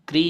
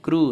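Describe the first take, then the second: First: The syllable has an 'ee' vowel after 'kr'. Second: The syllable has an 'oo' vowel after 'kr'. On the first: The speaker calls it wrong. "क्री नहीं है" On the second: The speaker calls it right. "क्रू है"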